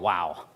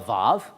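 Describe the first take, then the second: First: The name starts with a W sound. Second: The name starts with a V sound. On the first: This is the name used at a seminary. "If you're learning Hebrew at like a seminary, it's called a wow" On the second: This is the modern Hebrew name. "if you're learning modern Hebrew, it's called a vav"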